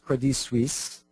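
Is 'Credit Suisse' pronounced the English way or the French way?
French. The name is pronounced the French way. The speaker calls it right. "if you're French, it's Credit Suisse"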